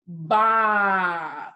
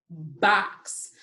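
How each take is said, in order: First: BOX stretched long and louder; said slowly. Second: Said in the usual way. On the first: Shown as a demonstration. Teacher demonstrating the spelling routine, BOX said slowly. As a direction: hold the vowel of BOX, then release the ks. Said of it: "say it slowly". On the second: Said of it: "what sounds did we hear in box".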